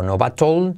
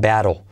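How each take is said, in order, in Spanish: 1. La consonante del medio es una t dura y clara. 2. La consonante del medio es un toque suave tipo r. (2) "T como R suave"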